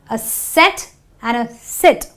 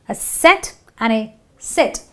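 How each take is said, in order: No difference in how they are said.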